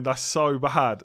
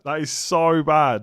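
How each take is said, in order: First: Slow, yawning "so". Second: "so" stretched slow through a big yawn; loud yawn. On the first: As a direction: say "so" mid-yawn, drawn out. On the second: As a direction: yawn loudly on "so". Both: Real, not acted. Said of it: "I'm yawning".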